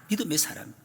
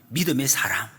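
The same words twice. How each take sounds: First: Breathy whisper of 믿음의 사람; whispered repeat. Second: Said in the usual way. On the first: Shown as a demonstration. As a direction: let 믿음의 사람 fall to a hushed whisper. (믿음의 사람을 속삭이듯)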